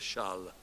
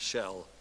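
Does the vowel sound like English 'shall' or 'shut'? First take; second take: shut; shall. First: The vowel sounds like the u in shut. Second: The vowel sounds like the English word shall. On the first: The speaker calls it right. "It's like a U sound in English" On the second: The speaker calls it wrong. "Not shall"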